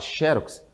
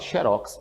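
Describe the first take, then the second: First: The stress is on the first syllable. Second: The stress is on the last syllable. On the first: "você faz isso. Você acentua a palavra" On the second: "então você não acentua a palavra"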